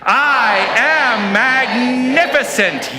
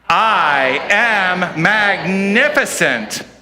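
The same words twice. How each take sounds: First: It is said with more energy. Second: It is said with less energy.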